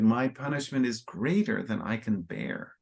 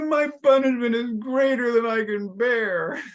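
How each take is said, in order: First: It is said with real remorse and pain. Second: It is said in a whiny, crybaby tone. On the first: The speaker feels genuine regret and suffering. The speaker calls it right. "I think he said it with some real remorse, some real pain" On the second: The speaker is complaining like a crybaby. The speaker calls it wrong. "A crybaby is like"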